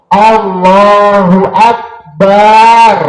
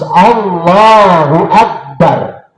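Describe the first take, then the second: First: The ba sound in Akbar is drawn out long. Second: The ba sound in Akbar is kept short. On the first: The speaker calls it wrong. "Baknya juga sama dalam mata maliki gak oleh doa-doa. Allahu Akbar gak boleh" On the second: The speaker calls it right. "Harus Allahu Akbar"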